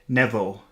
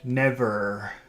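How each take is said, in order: First: The final r is dropped, like baby talk. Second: The final r is fully pronounced with air pushed out. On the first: The speaker calls it wrong. "That's how a little child says never" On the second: The speaker calls it right. "Push the air out"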